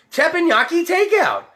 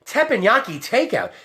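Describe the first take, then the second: First: "Teppanyaki takeout" pitched high and pushed out; excited repeat. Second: Said in the usual way. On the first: Shown as a demonstration. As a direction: sell "Teppanyaki takeout" like a big reveal, voice jumping up.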